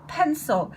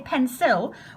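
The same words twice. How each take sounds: First: The second vowel is a weak schwa. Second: The second vowel is a clear 'i' sound. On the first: The speaker calls it right. "There's a little schwa just there" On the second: The speaker calls it wrong. "it's not put il pencil. We don't say pencil"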